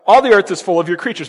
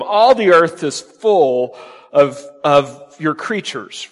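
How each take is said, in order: First: Said in the usual way. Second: Slow emphatic reading. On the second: Shown as a demonstration. Preacher slowly reading the verse to his congregation, slow and weighty. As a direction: read "All the earth is full of, of your creatures" very slowly, weighing each word. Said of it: "notice it says".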